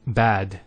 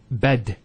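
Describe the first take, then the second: First: Bad with a long drawn A. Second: Bed with a short E; short wrong vowel. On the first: Teacher giving the right bad. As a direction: hold the A in bad. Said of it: "we say". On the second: Teacher showing the wrong bed. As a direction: clip it to bed. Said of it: "We don't say bed". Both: Shown as a demonstration.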